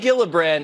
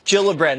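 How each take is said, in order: First: It begins with a hard G sound. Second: It begins with a soft J-like G sound. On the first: The speaker calls it wrong. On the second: The speaker calls it right. "it's a soft cheat"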